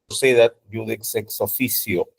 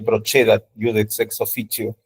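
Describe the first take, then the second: First: The c before e and i sounds Spanish. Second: The c before e and i sounds like ch. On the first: "Si han estudiado latín con la escuela española" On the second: "A mí me enseñaron la italiana"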